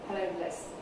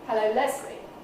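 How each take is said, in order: First: The greeting is said at a low pitch. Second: The greeting is said at a mid pitch. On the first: "It's very low key" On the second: "which is more mid"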